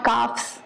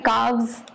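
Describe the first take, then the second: First: The consonant before the ending is an F sound. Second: The consonant before the ending is a V sound. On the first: The speaker calls it wrong. "not calves" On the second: The speaker calls it right. "plural है calves"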